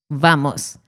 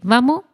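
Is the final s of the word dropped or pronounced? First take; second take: pronounced; dropped. First: The final s is clearly pronounced. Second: The final s is dropped.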